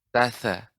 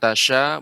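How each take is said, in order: First: The consonant is a 'th' sound. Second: The consonant is a 'sh' sound. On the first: The speaker calls it right. "akan tapi tatha" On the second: The speaker calls it wrong. "bukan tasya"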